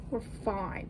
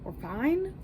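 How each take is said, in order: First: Said in the usual way. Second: Rising, mock-cheery reassurance; sing-song we're fine. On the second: Real, not acted. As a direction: brightly insist all is fine. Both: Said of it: "I've only had one coffee".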